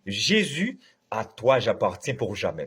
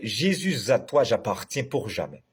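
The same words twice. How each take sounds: First: Jésus is kept apart from à, no z sound. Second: Jésus is joined to à with a z sound. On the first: The speaker calls it right. "on ne peut pas avoir de liaison dans ce cantique" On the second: The speaker calls it wrong. "c'est comme ça parce que tout le monde chante li"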